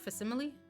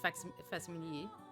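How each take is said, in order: First: The word is pronounced with English sounds. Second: The word is pronounced with French sounds. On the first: "is that how you say it in English too?" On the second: "in French it's facsimile"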